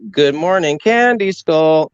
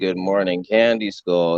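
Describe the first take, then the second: First: It is said at a noticeably higher pitch. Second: It is said at an ordinary, lower pitch. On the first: "That that one where the pitch is higher" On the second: "where I'm not just going"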